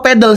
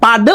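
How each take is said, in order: First: The first vowel sounds like 'eh'. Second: The first vowel sounds like 'ah'. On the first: The speaker calls it wrong. "bukan pedal ya" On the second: The speaker calls it right. "Katanya padel penyebutannya"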